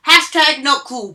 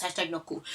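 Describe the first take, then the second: First: Loud hashtag. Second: Quiet hashtag. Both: Shown as a demonstration. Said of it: "repeats catchphrase fading".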